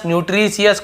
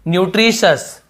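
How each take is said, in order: First: The ending is said as two syllables, 'see-us'. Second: The ending is said as one syllable, 'shus'. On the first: The speaker calls it wrong. "सियस सियस नहीं बोल रहे हैं हमें" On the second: The speaker calls it right. "हमें शश बोलना है।"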